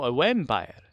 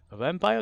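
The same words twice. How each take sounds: First: "vampire" said as "wampire" with a w sound; joking mispronunciation. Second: Said in the usual way. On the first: Shown as a demonstration. Streamer correcting himself, saying "vampire" as "wampire". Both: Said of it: "No, a vampire".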